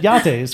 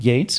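First: The name is said with Spanish pronunciation. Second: The name is said with English pronunciation. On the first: "By someone who is Spanish, because they'll pronounce it Yates" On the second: "It's obviously English"

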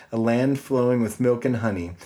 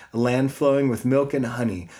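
The two takes are said the same way.

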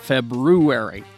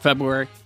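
First: Every sound of the word is said clearly. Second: The word is slurred with sounds dropped. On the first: The speaker calls it right. "That's how you're supposed to say it" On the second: The speaker calls it wrong. "A lot of people just mumble it"

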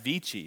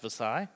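First: The name is said with a Latin pronunciation. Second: The name is said with the local pronunciation. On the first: This is how the Latin original sounds. The speaker calls it right. "It should be pronounced Vici because it's Veni, Vidi, Vici" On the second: This is how the townspeople say it. The speaker calls it wrong. "they don't know how to speak Latin, so it's pronounced Visalia"

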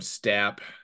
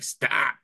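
First: The name is said short in a plain voice. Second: The name is drawn out in a whiny, strained voice. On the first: It is the speaker's own way of saying it. "personally, I just call him Stap" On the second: It mimics how people online say it. "like the kind of gagging it out a little bit"

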